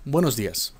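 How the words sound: It is said in a flat, neutral tone. "con un tono neutral"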